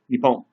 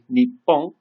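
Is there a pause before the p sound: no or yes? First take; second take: no; yes. First: There is no pause before the p. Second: There is a short pause before the p. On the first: Listeners may hear a different word. The speaker calls it wrong. "and you say nippon" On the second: This is the intended word. The speaker calls it right. "if you mean to say nippon"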